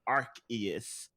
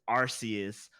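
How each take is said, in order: First: The name avoids beginning with an 'arse' sound. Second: The name begins with an 'arse' sound. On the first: This form avoids a rude-sounding word. "for the international release that they wanted it canonically said as Arceus" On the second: This is the original form of the name. "the correct pronunciation, Japanese pronunciation, is Arceus"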